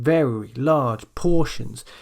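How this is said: Each word is stressed separately. The speaker calls it wrong. "it's not like you're stressing each word individually"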